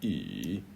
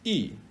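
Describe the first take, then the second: First: The syllable is said with the third tone. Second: The syllable is said with the fourth tone. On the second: "or four"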